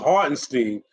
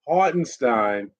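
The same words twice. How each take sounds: First: The name is said with an English pronunciation. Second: The name is said with a German pronunciation. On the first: The speaker calls it wrong. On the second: The speaker calls it right.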